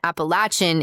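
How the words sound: It is said the southern way, with ch. "the southern pronunciation"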